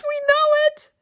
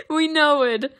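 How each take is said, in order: First: Very high playful squeak on "We know it"; squeaky high voice. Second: Said in the usual way. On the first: Real, not acted. Repeated high then plain.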